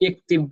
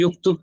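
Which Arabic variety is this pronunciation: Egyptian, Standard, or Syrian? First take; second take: Syrian; Egyptian. First: It is said with Syrian dialect vowels, iktib. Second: It is said with Egyptian dialect vowels, yuktub. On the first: This is how it is said in Syria. "शाम में सीरिया के अंदर जो है यक्तुब को कोई इक्तिब भी कह सकता" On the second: This is how it is said in Egypt. "मिस्र में कोई जो है यक्तुब को युक्तुब कह सकता है"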